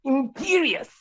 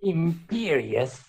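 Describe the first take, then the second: First: High-pitched villain's spell; Voldemort. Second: Slow, drawn-out villain's spell; Voldemort. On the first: Teaching friend Voldemort's spell, high villain incantation. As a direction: cast it in a high mock-villain voice. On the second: Trying out Voldemort's movie voice, slow villain incantation. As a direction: stretch the word out as a mock villain. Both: Acted. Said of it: "how does he talk in the movies?".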